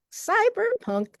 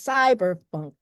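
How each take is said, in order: First: CYBERPUNK pitched way up high; high-pitched repeat. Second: Said in the usual way. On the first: Real, not acted. Host listing poetry genres, high-pitched "cyberpunk". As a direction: lift "cyberpunk" far above your usual pitch.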